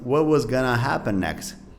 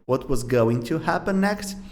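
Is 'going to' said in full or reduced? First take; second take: reduced; full. First: 'Going to' is reduced to 'gonna'. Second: 'Going to' is said in full.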